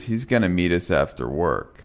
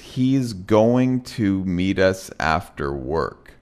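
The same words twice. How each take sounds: First: "Going to" is reduced, close to "gonna". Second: "Going to" is said fully and carefully. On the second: "I'm going to read each sentence the way that it's written"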